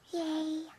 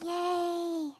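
First: It is said quietly and weakly. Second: It is shouted very loudly.

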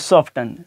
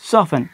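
First: The t sound is pronounced. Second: The t sound is silent. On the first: The speaker calls it wrong. "और इस तरीके से सॉफ्टन" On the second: The speaker calls it right. "अब यहाँ पे टी silent है"

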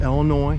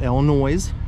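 First: The word ends without an S sound. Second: The word ends with an audible S sound. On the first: The speaker calls it right. "it is pronounced Illinois" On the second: The speaker calls it wrong. "not Illinois, even though there's an S on the end"

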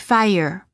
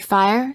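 First: An extra vowel sound makes it almost two syllables. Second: It is said as one tight syllable. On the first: The speaker calls it right. "say fire" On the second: The speaker calls it wrong. "Don't say fire"

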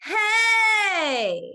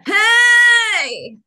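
First: The voice sounds even, neither pressed nor airy. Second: The voice sounds pressed, pushed and strained. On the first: The speaker calls it right. "a well-balanced sound" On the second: The speaker calls it wrong. "overly compressed, ... very pushy and strainy"

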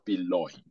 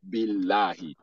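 First: The L sound is thick and heavy. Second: The L sound is thin and light. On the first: The speaker calls it wrong. "not billahi" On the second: The speaker calls it right. "anytime Kesra is coming before it, is that lam is going to be pronounced la"

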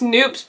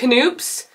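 First: The word starts with an n sound, no k. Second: The word starts with a k sound. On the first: This is how the name is properly pronounced. "I think it's pronounced Noops" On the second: This is how the speaker's group says the name. "but we pronounce it Knoops"

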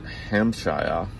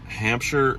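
First: The name is said in a fancier, posher way. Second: The name is said in a plain, ordinary way.

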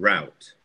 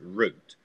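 First: The word is said the Chicago way. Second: The word is said the New York way. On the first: "те, кто живет в Чикаго, они будут говорить route" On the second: "ты возьмешь нью-йоркцев, да, которые будут говорить route"

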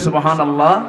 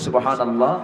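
First: The phrase is said loudly and strongly. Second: The phrase is said softly and quietly. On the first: "আর একটু জোরে বলি" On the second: "একটু আস্তে বলি"

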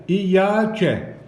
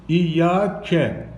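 Both takes have the same delivery.

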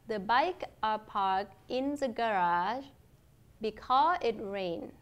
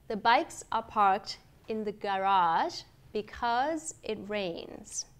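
First: The final consonants of words are dropped. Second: The final consonants of words are clearly pronounced. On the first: The speaker calls it wrong. "sau đó thì là không phát âm các âm kết" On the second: The speaker calls it right. "tôi đọc có các âm kết được phát âm"

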